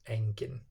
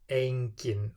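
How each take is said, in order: First: The first vowel is a single plain sound. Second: The first vowel glides between two vowel sounds. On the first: The speaker calls it wrong. "and not engin" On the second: The speaker calls it right. "E becomes a"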